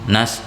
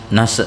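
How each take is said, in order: No difference in how they are said.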